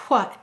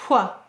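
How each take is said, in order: The two takes are said the same way.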